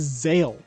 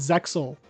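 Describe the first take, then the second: First: The word is said without any X sound. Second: The word is said with a clear X sound. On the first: This is how it is said in Japanese. "the Japanese pronunciation is Zale. Like you're supposed to ignore the X" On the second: This is how English speakers usually say it. "I've heard everyone just call it Zexal"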